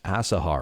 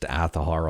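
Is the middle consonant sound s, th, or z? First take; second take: s; th. First: The middle consonant is an s sound. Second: The middle consonant is a th sound. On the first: This is how many people think it is said. The speaker calls it wrong. "a lot of people say it should be pronounced Asahar" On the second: This is how the developers say it. The speaker calls it right. "this one is pronounced Athahar"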